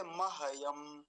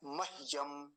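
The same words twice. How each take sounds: First: महयम drawn out as ma-ha-yam; full h. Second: मह्यम as mah-yam, h without a vowel; two syllables in मह्यम, mah then yam; half h. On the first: Teacher showing how a full letter would sound, full h. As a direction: voice a whole ha inside महयम. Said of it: "अगर पूरा होता तो कैसे बोलते". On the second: Teacher repeating it for careful watching, half h. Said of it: "फिर से ध्यान से". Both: Shown as a demonstration.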